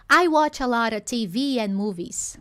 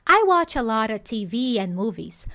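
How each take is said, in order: No difference in how they are said.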